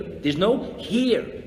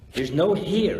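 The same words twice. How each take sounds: First: Each word slowed and weighed; slow emphasis. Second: Said in the usual way. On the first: Shown as a demonstration. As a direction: draw it out, letting it land.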